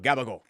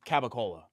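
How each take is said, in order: First: The word is said in authentic dialect form. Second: The word is said in its standard form. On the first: The speaker calls it right. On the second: The speaker calls it wrong.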